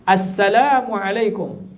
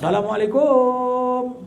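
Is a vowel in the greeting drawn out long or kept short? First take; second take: short; long. First: The vowels in the greeting are kept short. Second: A vowel in the greeting is drawn out long. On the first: The speaker calls it right. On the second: The speaker calls it wrong. "ada yang panjang"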